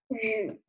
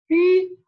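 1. 音高先降到低，然后升起来。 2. 音高始终保持高而平。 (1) "三声读雨" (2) "它的一声读鱼"

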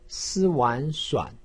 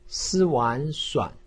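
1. 音高先降到低，然后升起。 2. 音高先降到低，然后升起。

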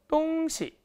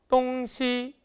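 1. 두 번째 음절은 가볍고 성조가 없습니다. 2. 두 음절 모두 높은 1성입니다. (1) "일성과 경성을 사용해서" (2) "일성과 일성으로 읽어버린다면"

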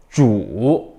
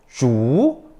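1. 음높이가 낮게 내려갔다가 올라가요. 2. 음높이가 중간에서 높이 올라가요. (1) "삼성" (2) "이성"

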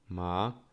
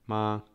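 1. Wysokość rośnie w obrębie sylaby. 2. Wysokość głosu jest równa. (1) "Drugi ton wznoszący" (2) "Pierwszy ton, ton taki równy"

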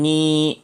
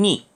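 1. 이 음절은 제1성으로 발음합니다. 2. 이 음절은 제4성으로 발음합니다. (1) "제1성으로 읽으면 니" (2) "제4성으로 읽으면 니"

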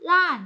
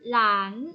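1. เสียงตกอย่างรวดเร็วจากสูง 2. เสียงขึ้นจากกลางไปสูง

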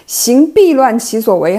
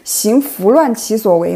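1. 第二个字读 bì。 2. 第二个字读 fú。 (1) "这个"必"和"拂"读音不同" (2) "这个"必"和"拂"读音不同"

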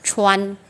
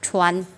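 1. Âm cuối được phát ra bằng đầu lưỡi. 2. Âm cuối được phát ra bằng đầu lưỡi.

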